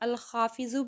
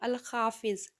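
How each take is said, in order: First: The name ends with a short u vowel. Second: The name ends on the bare final consonant. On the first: The name is read joined to the next one. "ज़ौद को पेश" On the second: The name is read on its own. "आखिर का जो भी हर्फ होता है उसको हम साइलेंट कर देते हैं"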